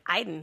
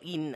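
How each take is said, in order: First: The name starts with an 'eye' sound. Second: The name starts with an 'ee' sound. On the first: The speaker calls it wrong. "I always want to say that wrong" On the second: The speaker calls it right. "no, Eden. I got to get it right"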